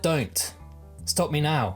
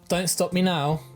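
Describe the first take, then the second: First: There is a clear pause after 'Don't'. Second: It is said smoothly with no pause after 'Don't'. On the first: Please make me stop now. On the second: Please keep letting me go on.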